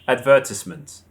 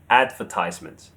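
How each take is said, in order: First: It is said the British way. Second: It is said the American way. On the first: "In British English, we say advertisement. The stress is on the third syllable" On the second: "But Americans say advertisement"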